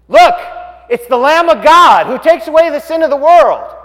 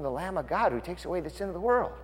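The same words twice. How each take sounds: First: Loud, high shouted proclamation; hollering out. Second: Said in the usual way. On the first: Acted. John spots Jesus and announces him, hollering out. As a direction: holler it out to the whole crowd. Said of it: "And he hollers out". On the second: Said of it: "Why did John call him".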